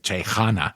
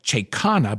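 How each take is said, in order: First: The middle consonant is a soft h sound. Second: The middle consonant is a clear k sound. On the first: The speaker calls it right. "they don't say the K" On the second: The speaker calls it wrong. "it looks like Chekana, but they don't say the K"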